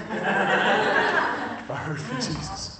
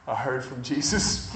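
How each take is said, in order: First: Slow, drawn out, with a laugh; awed repeat. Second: Said in the usual way. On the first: Retold or imitated. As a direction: savour it, letting each word stretch out. Quote repeated slowly, in awe.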